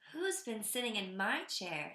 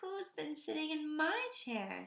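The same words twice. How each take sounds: First: It is said in a medium-pitched voice. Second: It is said in a small, high voice. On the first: "in her medium-sized voice" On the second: "in his tiny little voice"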